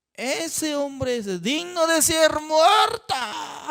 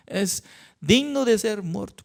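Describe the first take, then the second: First: High, slow furious shout; angry shout. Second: Said in the usual way. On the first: Acted. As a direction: roar out the death sentence in rage. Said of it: "el rey David se enojó". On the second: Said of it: "Así decía".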